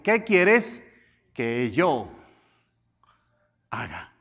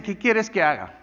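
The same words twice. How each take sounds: First: "yo" set apart by pauses, then "haga" dropped to a hush; stress on YO. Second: Said in the usual way. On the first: Shown as a demonstration. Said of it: "Él habló en primera persona". ("yo" destacado entre pausas, "haga" casi susurrado) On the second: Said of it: "Él no le dice".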